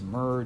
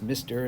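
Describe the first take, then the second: First: It is read as one short syllable. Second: It is read as two full syllables. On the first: The speaker calls it wrong. "We don't pronounce this Murr" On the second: The speaker calls it right. "just like we pronounce this Mister and not Murr"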